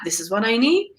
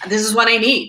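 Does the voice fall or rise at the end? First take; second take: rise; fall. First: The voice rises at the end of the phrase. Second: The voice falls at the end of the phrase. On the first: The speaker sounds unsure and lacks credibility. The speaker calls it wrong. "and not" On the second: The speaker sounds confident and certain. The speaker calls it right. "you want to be going down at the end of your phrase"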